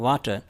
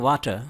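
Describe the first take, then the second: Both takes have the same delivery.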